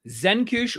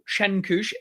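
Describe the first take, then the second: First: The name begins with a z sound. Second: The name begins with a ch sound. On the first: "The C Z could be either a Z" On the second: "or a Ch"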